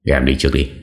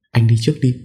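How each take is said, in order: First: Said in the usual way. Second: Put-on higher, timid young wife voice; frightened wife. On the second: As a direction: push him ahead, too scared to go. (giọng vợ sợ hãi, cao và rụt rè)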